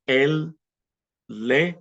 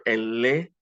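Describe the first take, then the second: First: Él, pause, lee, each word alone; separated words. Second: Él lee run together as one smooth unit; elided together. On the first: Teacher building he reads, word by separated word. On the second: Teacher showing how two E's elide, run together. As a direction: join Él lee with no gap. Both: Shown as a demonstration. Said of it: "just kind of all elides together".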